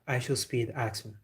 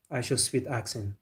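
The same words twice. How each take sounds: The two takes are said the same way.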